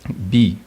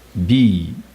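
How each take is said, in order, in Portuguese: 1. A palavra é dita em tom médio. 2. A palavra é dita em tom baixo. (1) "aguentar, tom médio" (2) "é empurrar, é o tom baixo"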